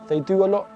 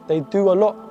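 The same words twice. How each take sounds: The two takes are said the same way.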